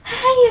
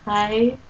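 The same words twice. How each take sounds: First: It is said loudly and excitedly. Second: It is said very quietly.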